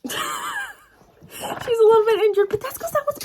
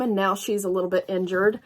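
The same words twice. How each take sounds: First: High, squeaky confession; a sheepish admission about the injured book; squeaky mock guilt. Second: Said in the usual way. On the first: Real, not acted. Laughing at her own temper.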